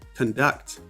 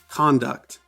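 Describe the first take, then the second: First: The stress is on the second syllable. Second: The stress is on the first syllable. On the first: It is used as a verb. "in the verb, the second syllable, duct, is stressed" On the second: It is used as a noun. "in the noun, the first syllable, con, is stressed"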